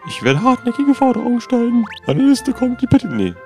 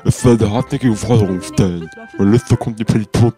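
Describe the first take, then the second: First: It is spoken in a plain, normal voice. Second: It is spoken in a heavy, bold voice. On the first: The speaker calls it wrong. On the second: The speaker calls it right.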